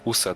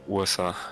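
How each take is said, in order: First: It is run together as one word. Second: Each letter is said separately on its own. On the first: The speaker calls it wrong. "you pronounce it as a one word instead of like singular letters" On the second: The speaker calls it right. "you pronounce every letter on its own"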